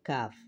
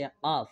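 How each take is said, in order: First: কাফ said as the other Arabic kaf, set against the first; second kaf letter. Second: কাফ said as the first of the two Arabic kaf letters; কাফ as one of two kafs. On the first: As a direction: contrast this কাফ with the earlier one. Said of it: "আর এই কাফের উচ্চারণ হচ্ছে". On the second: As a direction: demonstrate this কাফ distinctly from the other. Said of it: "এই কাফের উচ্চারণ হচ্ছে কাফ". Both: Shown as a demonstration.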